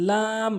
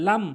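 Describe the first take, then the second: First: "লাম" with a long held aa; correct pronunciation. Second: "লাম" with a short vowel; wrong pronunciation. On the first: Teacher models the Arabic letter, long "লাম". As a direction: draw out "লাম" evenly. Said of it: "সঠিক উচ্চারণ". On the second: Teacher shows learners the mistake, short "লাম". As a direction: say "লাম" quickly. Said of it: "ভুল উচ্চারণ". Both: Shown as a demonstration.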